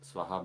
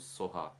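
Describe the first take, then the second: First: The word begins with a 'swa' sound. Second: The word begins with a 'so' sound. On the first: This is the Sanskrit pronunciation. "In the Tibetan traditions, uh, their pronunciations are slightly different than Sanskrit" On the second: This is the looser Tibetan pronunciation. "Swaha becomes Soha"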